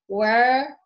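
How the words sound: The vowel is reduced to an er sound.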